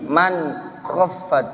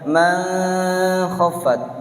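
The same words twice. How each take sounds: First: The n sound is pronounced clearly and distinctly. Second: The n sound is hidden into the next sound. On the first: The speaker calls it right. "jadi man khaffat jelas ya" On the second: The speaker calls it wrong. "jangan dibaca man khaffat"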